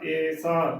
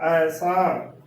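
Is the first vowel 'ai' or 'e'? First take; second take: e; ai. First: The first vowel is an 'e' sound. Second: The first vowel is an 'ai' sound. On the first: The speaker calls it wrong. "ਕਈ ਇਸ ਦਾ ਉਚਾਰਨ ਈੜੀ ਲਾਵਾਂ ਏ" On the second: The speaker calls it right. "ਇਸ ਦਾ ਉਚਾਰਨ ਹਮੇਸ਼ਾ ਐਸਾ ਹੀ ਕਰਨਾ ਹੈ"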